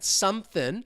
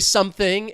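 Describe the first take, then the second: First: The word ends with a plain n sound. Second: The word ends with a full ng sound. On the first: "This is how I'm trying to spell it to represent that" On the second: "But if you want to say something, it's fine"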